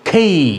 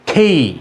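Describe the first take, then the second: First: The k is breathy and the vowel glides up. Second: The same.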